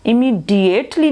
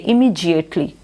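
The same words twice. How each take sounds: First: "इमीडिएटली" with a hard d, immee-dee-ate-lee; wrong pronunciation demo. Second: "इमीडिएटली" with j for d, immee-jee-ate-lee; j-sound pronunciation. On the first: Teacher showing students what not to read, "इमीडिएटली" with a plain d sound. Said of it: "इमीडिएटली नहीं पढ़ते". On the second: Teacher modelling the reading for students, "इमीडिएटली" with a j sound. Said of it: "डीआईए में से जी की आवाज़ निकलती है". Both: Shown as a demonstration.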